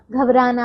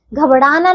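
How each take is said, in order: First: घबराना with a plain tapped r. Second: घबराना with retroflex flap ड़; flapped r. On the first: Teacher correcting pupils, घबराना with plain r. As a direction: say घबराना as ghab-raana. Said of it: "घबराना होता है". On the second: Teacher showing wrong घबराना with a ड़ flap. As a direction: say घबराना as ghab-Ṛaana. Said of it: "घबराना नहीं होता". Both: Shown as a demonstration.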